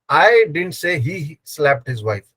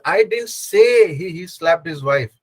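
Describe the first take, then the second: First: The stress falls on the word I. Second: The stress falls on the word say. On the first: Someone else said it. "I didn't say. Someone else said" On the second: It was written or only thought, not said. "I actually wrote it down"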